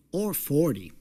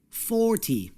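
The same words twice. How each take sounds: First: Forty said FORty, strong first syllable and a falling end; stress on first syllable. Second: Forty said forTY, the TY pitched high; forty with a teen-like stress on the end; stress on second syllable. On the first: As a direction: lean on FOR in forty. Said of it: "the stress is on the first syllable". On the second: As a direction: push the weight onto TY in forty. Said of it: "Listen for the stress". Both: Shown as a demonstration.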